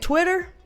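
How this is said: The middle sound is a soft D, like udder. The speaker calls it wrong. "I say Twitter because I'm southern as hell, but this ain't a cow udder"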